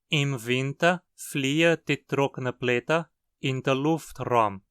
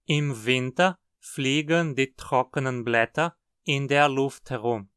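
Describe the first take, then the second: First: It is said in a Hunsrik accent. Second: It is said in a Standard German accent.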